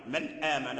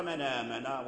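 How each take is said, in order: First: "من آمن" as two words, "man āman", with a glottal stop; hamza fully pronounced. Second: "من آمن" run together as "manāman"; hamza dropped. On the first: Teacher showing what Warsh avoids in "من آمن", full hamza. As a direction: keep a catch between "من" and "آمن". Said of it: "لم يقرأ". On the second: Teacher showing Warsh's reading of "من آمن", hamza dropped. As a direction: carry the nun of "من" straight into "آمن". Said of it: "قرأ". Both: Shown as a demonstration.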